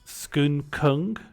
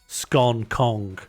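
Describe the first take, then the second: First: Said with the local pronunciation of the town. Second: Said in the speaker's own regional pronunciation. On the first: "you'd be saying" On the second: "I pronounce the foodstuff as scone"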